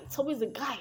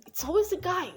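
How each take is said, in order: First: Said in the usual way. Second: "always" pitched high and falling; emphatic. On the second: Shown as a demonstration. Mocking aside to viewers, high "always".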